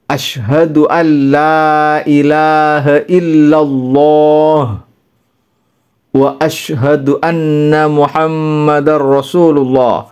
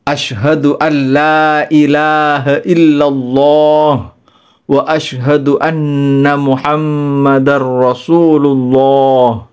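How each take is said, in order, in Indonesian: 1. Dipisah menjadi dua bagian oleh jeda. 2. Diucapkan sekaligus tanpa berhenti. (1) "dipisah separuh-separuh" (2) "dibaca langsung dua kalimat syahadat sekaligus"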